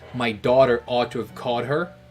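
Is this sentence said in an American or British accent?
American. It is said in an American accent.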